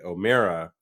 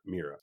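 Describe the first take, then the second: First: The stressed vowel sounds like 'air'. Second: The stressed vowel sounds like 'ear'. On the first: The speaker calls it right. "as in bear or pear" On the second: The speaker calls it wrong. "and not Mira"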